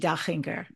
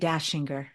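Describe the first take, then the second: First: The middle consonant is a throaty ch sound. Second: The middle consonant is an sh sound. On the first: The speaker calls it right. "it is Debbie Dachinger" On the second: The speaker calls it wrong. "people here say Dashinger"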